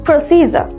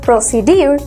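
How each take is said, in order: First: The middle consonant is a 'j' sound. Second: The middle consonant is a 'd' sound. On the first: The speaker calls it right. "we need to pronounce procedure / pronunciation হলো প্রসিজার" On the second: The speaker calls it wrong. "common pronunciation procedure / এটাকে আমরা বলে থাকি প্রসিডিউর"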